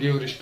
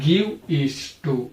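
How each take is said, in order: First: The words are said fast and run together. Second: Each word is said separately and clearly. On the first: "fast pronunciation ಮಾಡ್ತಾ ಇದ್ದಾಗ" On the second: "special ಆಗಿ ಏನಂತ ಓದಬೇಕು ಇದನ್ನ"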